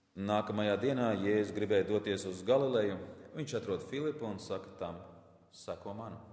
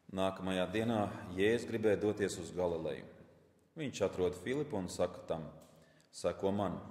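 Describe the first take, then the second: No difference in how they are said.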